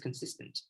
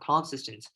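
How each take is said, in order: First: The stress falls on the normal syllable. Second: The stress falls on a misplaced syllable. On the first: The speaker calls it right. "It's consistent" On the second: The speaker calls it wrong. "wrong stress. It's not consistent"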